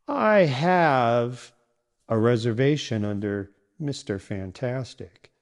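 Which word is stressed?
have. The stress falls on the word have. The fact of having a booking matters most. The speaker calls it wrong. "if you stress the wrong word like this... stressing have"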